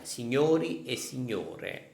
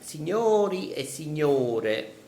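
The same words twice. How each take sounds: First: It is said in standard Italian. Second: It is said with a Neapolitan tone.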